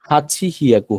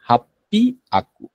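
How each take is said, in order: First: It is said as two separate words. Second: It is run together with a doubled P. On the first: The speaker calls it wrong. "কথা ছিল যে হাচি হিয়াকু হওয়ার কথা ছিল, কিন্তু না" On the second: The speaker calls it right. "এটা আমরা বলবো যে হাপ্পি আকু"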